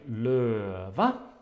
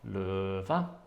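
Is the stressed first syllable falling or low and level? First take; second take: falling; low. First: The first syllable falls, then the second rises higher. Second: The first syllable stays low, then the second is higher. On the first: It means lion. "the first one has this falling tone, and then the non-stressed syllable is higher" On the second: It means the leaves. "the stressed syllable low and the non-stressed syllable high"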